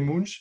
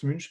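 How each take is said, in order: First: The name is pronounced as German would read it. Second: The name is pronounced neither French nor German style. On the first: The speaker calls it wrong. "À l'allemande, ça serait Munch" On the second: The speaker calls it right. "Et non, ça se prononce Munch"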